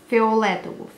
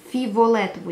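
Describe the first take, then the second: First: The word is said without an extra v sound. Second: The word is said with an extra v sound.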